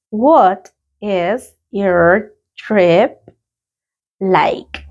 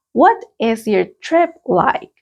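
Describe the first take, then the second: First: Very slow, stretched repetition; a drawn-out classroom repetition; very slow repeat. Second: Slow, clear question; a teacher's clear model question. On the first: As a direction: drag each word out for learners. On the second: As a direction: read it out slowly and clearly. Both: Shown as a demonstration. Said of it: "Let's practice the pronunciation".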